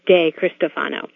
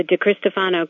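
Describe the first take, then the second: First: De Cristofano with De said clearly as "day"; full first syllable. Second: De Cristofano with a quick, weak "duh" for De; reduced first syllable. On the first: Explaining her surname's variants, De Cristofano with full "day". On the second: Explaining her surname's variants, De Cristofano with reduced "duh". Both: Shown as a demonstration. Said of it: "depending on how fast I speak".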